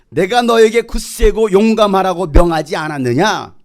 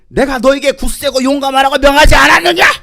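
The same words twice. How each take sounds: First: It is said in a calm, ordinary voice. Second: It is said in a raised, forceful voice.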